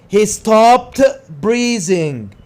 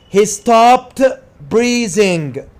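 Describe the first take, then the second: The two takes are said the same way.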